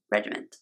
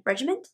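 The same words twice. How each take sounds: First: "Regiment." said flat and final, a touch softer; settling on the word. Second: "regiment?" asked with a rising tune, unsure of the word; questioning the word. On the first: Deciding the word after doubting it, quiet and firm. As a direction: firmly confirm "Regiment." with a falling tune. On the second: Doubting her own word mid-tutorial, rising question. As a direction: check "regiment?" aloud with an upward question lilt. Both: Shown as a demonstration.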